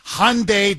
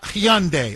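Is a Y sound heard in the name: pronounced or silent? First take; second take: silent; pronounced. First: The Y sound is left silent in the name. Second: The Y sound is pronounced in the name. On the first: The speaker calls it right. "the Y is silent" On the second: The speaker calls it wrong. "not Hyundai"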